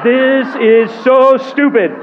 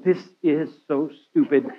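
First: Higher, louder, slower laughing gripe; exasperated laughing complaint. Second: Soft, laughing grumble under the breath; muttered complaint. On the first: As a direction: let the frustration burst out through a laugh. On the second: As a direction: mutter it to yourself, half laughing. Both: Retold or imitated. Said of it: "I would be marching around going".

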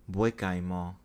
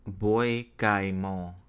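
First: Bois-Guillemot said as "pwa-ghee-mo" in a careful French accent; French accent attempt, repeated. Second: French accent attempt. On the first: Vlogger practising the Haitian place name, careful French accent. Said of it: "in my best French accent". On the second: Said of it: "me trying to say it in my best French accent". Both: Shown as a demonstration.

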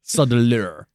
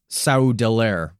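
First: "Saudeleur" ending like "lur"; corrected pronunciation. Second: "Saudeler" drawn out, ending like "lair"; first-try pronunciation. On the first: Host repeating the co-host's correction, "Saudeleur" ending in "lur". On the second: Host attempting the ruler's title, slow "Saudeler" ending in "lair". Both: Shown as a demonstration.

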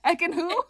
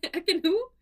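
First: Mock confusion. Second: High echo of the confused Ekin who; mock confusion. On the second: Podcast host echoes co-host, mock puzzled. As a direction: echo your friend's puzzled question, pitched up. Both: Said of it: "who was the other".

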